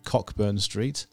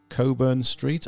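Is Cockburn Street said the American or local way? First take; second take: American; local. First: It is said the American way. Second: It is said the local Edinburgh way.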